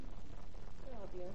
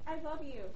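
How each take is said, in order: First: It is said as if not meant at all. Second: It is said in a sincere, heartfelt way.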